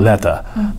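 The middle consonant is a clear T. This is how British speakers say it. "ブリティッシュはまあT なんですけど"

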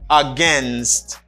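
The word is said in an American pronunciation. "For American English"

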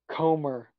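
The word is said with an American accent. The speaker calls it wrong. "That that's literally the whitest you could pr- pronounce that shit"

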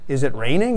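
The pitch changes at the end. The speaker calls it right. "Then my voice goes up at the end"

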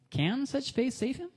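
The question is said as a genuine inquiry. The speaker really wants to know the answer. "if I said it with a different tone, ... It asks like I'm genuinely asking"

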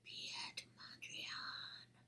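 It is said as if very scary.

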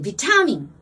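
The first syllable sounds like 'vit'. "イギリスは、"

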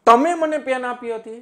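The stress falls on તમે. It was the listener rather than someone else. "તમે ઉપર હું ભાર બતાવું"

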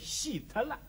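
It is said with Shanghainese pronunciation. "上海话说出来是喜特了"

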